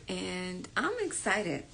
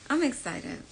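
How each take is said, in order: First: Drawn out very slow and softer; slow, hushed. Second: Said in the usual way. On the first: Acted. Telling viewers about the webinar, slow and hushed. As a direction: savour every word softly. Repeating her excitement.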